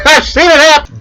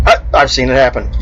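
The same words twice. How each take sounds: First: Laughing as you repeat it. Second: Said in the usual way. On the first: Real, not acted. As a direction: say it again through laughter, higher and louder.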